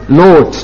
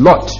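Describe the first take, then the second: First: The o vowel is long, German style. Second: The o vowel is short, English style. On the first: "Wollen wir also das O mal ein bisschen lang machen" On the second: "im Englischen sagt man Lot"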